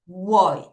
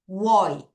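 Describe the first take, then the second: Both takes have the same delivery.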